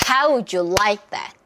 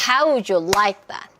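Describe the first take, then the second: No difference in how they are said.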